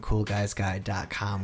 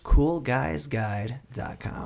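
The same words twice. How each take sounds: First: It is said at normal conversational speed. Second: It is said slowly and deliberately.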